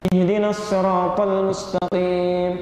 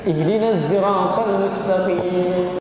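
First: Sirat begins with a heavy, emphatic s sound. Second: Sirat begins with a voiced z-like sound. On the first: The speaker calls it wrong. "Pakai shad" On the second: The speaker calls it right. "Yang benar pakai zai"

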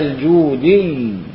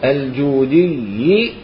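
First: The word ends on the doubled consonant, no vowel. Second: The word ends with a short i vowel. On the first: The reciter pauses at this word. "هذه الكسرة حال الوقف شيلها" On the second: The reciter continues into the next word. "كيف أنت تلفظها بحال وصل"

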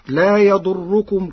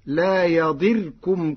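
First: The vowel after the d is u. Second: The vowel after the d is i.

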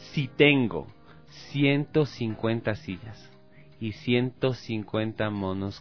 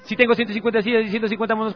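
First: It is spoken at the slowest speed. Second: It is spoken a little more slowly. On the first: "Un poquito más lento lo voy a decir" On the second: "Lo voy a decir un poquito más lento"

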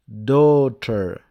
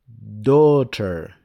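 No difference in how they are said.

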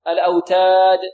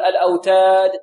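First: The final d has a strong, clear echo burst. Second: The final d has a weak, faint echo burst. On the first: The speaker calls it right. "ولابد أن نبين القلقلة هنا" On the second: The speaker calls it wrong. "لا نقول الأوتاد"

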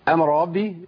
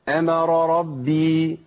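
First: The two r sounds run together into one. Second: Each of the two r sounds is articulated separately. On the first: The speaker calls it wrong. "فين الرأيات يا شيخ؟ ما ينفعش" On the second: The speaker calls it right. "أيوة"

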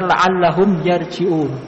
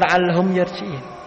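First: The last word ends with an 'un' sound. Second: The last word ends with an 'in' sound. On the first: The speaker calls it right. "Yang benar" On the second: The speaker calls it wrong.

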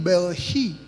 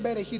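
First: The r sounds like a throaty h. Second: The r is a tapped Spanish r. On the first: "la R en hebreo no suena. Suena como Ju" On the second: "cuando tú dices Berejí"

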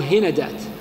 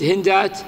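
First: The second consonant is followed by an 'a' vowel. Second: The second consonant has no vowel after it. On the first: "أو خففه بالفتح" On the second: "تسكن العين"

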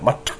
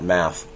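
First: The word ends in an aspirated t sound. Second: The word ends in a soft th sound. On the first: The speaker calls it right. "with an aspiration at the end" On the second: The speaker calls it wrong. "is not math"

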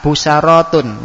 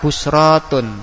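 First: An a vowel comes right after the s. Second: No vowel comes right after the s. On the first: "Di fathah" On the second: "yang ketiga tetap busratun"

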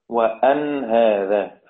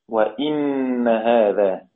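First: Open a vowel, with a single unstressed n. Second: An i vowel, followed by a doubled n. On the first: "فتح الهمزة وسكون النون" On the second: "بكسر الهمزة وتشديد النون"

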